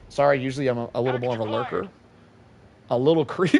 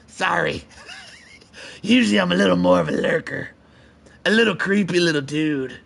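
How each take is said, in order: First: It is read in his normal voice. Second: It is read in a Smeagol impression voice.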